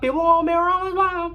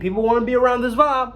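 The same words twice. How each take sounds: First: It is said in an odd, put-on voice. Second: It is said in a normal voice.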